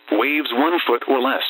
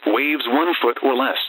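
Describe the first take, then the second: No difference in how they are said.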